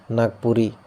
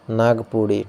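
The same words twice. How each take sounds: First: Said in the usual way. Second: नागपुड़ी said with a ड़ flap, pudi not puri; retroflex flap in नागपुड़ी. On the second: Shown as a demonstration. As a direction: say नागपुड़ी as naag-pudi, the tongue flicked back. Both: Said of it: "अब देखो नागपुड़ी".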